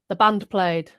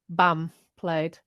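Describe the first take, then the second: First: The word band ends with an N sound. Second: The word band ends with an M sound. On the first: The speaker calls it right. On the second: The speaker calls it wrong.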